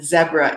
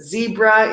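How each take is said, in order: First: It is said with a non-American pronunciation. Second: It is said with an American pronunciation. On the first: "zebra in many other countries" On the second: "zebra in the U S"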